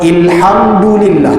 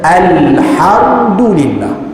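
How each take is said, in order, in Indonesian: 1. Kata ini dimulai dengan vokal 'i'. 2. Kata ini dimulai dengan vokal 'a'. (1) "Tak ada orang sebut macam tu" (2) "Tapi orang baca alhamdulillah"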